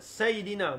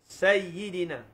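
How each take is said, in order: First: The y sound is short and single. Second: The y sound is doubled and held. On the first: "Ataupun yang uh, kedua" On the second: "Satu dengan tasydid"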